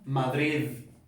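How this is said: The final d sounds like a d. "en el resto de España, ¿cómo se pronuncia?"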